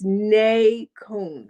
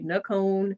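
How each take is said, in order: First: Both syllables are said fully and distinctly. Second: The syllables are run together and reduced. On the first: This is the proper pronunciation of the name. The speaker calls it right. "so it's Nay Cone" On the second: This is the casual everyday way of saying the name. The speaker calls it wrong. "I don't even say it right a lot of times myself. I guess just being lazy"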